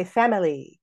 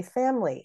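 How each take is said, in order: First: "family" in three syllables, FAM-i-lee; full, unelided "family"; all three syllables. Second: "family" in two syllables, FAM-lee; squeezed "family"; elided. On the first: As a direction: sound the middle vowel of "family". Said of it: "we don't always say family". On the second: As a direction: drop the middle vowel of "family". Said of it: "eliding is something that we do". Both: Shown as a demonstration.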